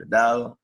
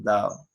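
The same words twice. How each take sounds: First: Said in the usual way. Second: "dao" said with no d in the middle, two vowels run together; dropped d. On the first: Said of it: "en vez de decir dado". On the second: Shown as a demonstration. Teacher showing the class the lost d in "dao". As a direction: slide straight from a to o in "dao". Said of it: "decimos dao".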